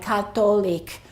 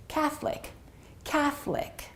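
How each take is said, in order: First: 'Catholic' in three syllables with a t and full o; foreign pronunciation. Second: 'Catholic' softly in two syllables, higher start; two-syllable pronunciation. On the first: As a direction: say 'Catholic' as ka-TO-lik, the o sounded. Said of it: "it might sound like". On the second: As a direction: say 'Catholic' as KATH-lik, o dropped, softly. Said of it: "and it sounds like this". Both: Shown as a demonstration.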